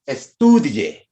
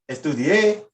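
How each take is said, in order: First: The stress falls on the second syllable. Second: The stress falls on the last syllable. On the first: It is the subjunctive. "take the accent mark off" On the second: It is the past tense. "If I had an accent mark on that E"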